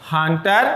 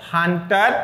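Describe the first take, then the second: No difference in how they are said.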